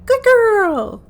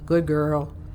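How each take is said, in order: First: It is said in an excited, joyous tone. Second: It is said in a grumpy tone.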